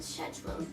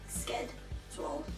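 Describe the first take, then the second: First: The word begins with an sh sound. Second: The word begins with an sk sound. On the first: "like British people say" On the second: "this K sound"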